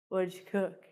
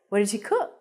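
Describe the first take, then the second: First: The voice stays flat or falls at the end. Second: The voice goes up at the end.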